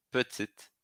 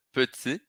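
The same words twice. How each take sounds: First: "petite" with the T pronounced at the end; final T sounded. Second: "petit" ending on the I, no T; silent final T. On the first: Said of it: "pronuncio T". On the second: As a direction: stop on the I of "petit". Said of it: "para no I". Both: Shown as a demonstration.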